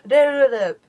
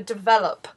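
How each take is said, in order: First: The word is slurred with unclear consonants. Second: The word is crisply enunciated with clear consonants. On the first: The speaker calls it wrong. "It was always develop" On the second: The speaker calls it right. "It was never develop"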